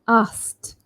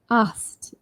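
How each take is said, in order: The two takes are said the same way.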